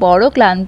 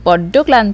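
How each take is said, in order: First: The first word has a single consonant. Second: The first word has a doubled consonant.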